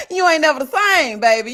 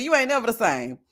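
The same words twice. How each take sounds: First: Louder punchline, ending on a fall at same; sassy shout. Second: Said in the usual way. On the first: Pretend. Vlogger shouts the punchline back at viewers, loud and sassy. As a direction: belt it out with sass.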